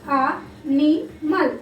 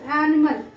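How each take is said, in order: First: ANIMAL in three pieces, a, ni, mal; syllable by syllable. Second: Said in the usual way. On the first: Shown as a demonstration. Teacher counting syllables for children, A, NI, MAL apart. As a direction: separate A, NI and MAL with short pauses. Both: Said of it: "These are three syllables".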